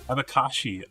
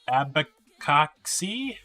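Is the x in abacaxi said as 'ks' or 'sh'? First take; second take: sh; ks. First: The x is said as sh. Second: The x is not said as sh. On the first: The speaker calls it right. "the X is with like she" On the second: The speaker calls it wrong. "I'm sure I completely butchered that"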